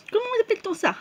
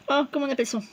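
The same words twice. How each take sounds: First: "Comment appelle-t-on ça" asked much higher; puzzled high question. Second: Said in the usual way. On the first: Shown as a demonstration.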